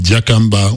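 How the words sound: The name runs together as one single word.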